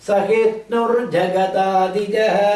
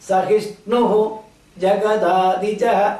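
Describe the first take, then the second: First: The words are joined together. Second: The words are said separately. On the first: "சேர்த்தும் போது" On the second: "ரெண்டு வார்த்தை"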